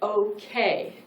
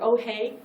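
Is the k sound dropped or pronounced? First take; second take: pronounced; dropped. First: The k sound is clearly pronounced. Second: The k sound is dropped. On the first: The speaker calls it right. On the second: The speaker calls it wrong.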